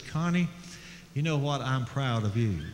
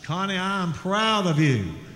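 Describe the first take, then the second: First: It is said at a normal, soft volume. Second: It is said very loudly.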